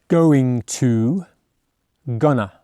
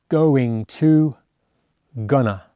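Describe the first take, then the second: Both takes have the same delivery.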